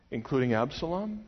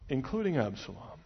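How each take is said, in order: First: A worried question, Absalom rising; doubting question. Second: Flat final statement, Absalom dropping down; grim answer. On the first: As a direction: ask Including Absalom? with a lift at the end. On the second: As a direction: answer Including Absalom. with a heavy settling fall. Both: Shown as a demonstration.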